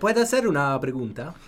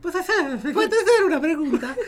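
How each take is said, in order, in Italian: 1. La voce suona neutra, non particolarmente femminile. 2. La voce suona un po' più femminile.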